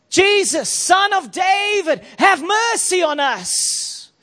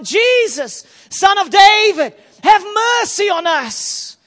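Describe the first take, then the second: First: It is said at normal volume. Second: It is shouted loudly.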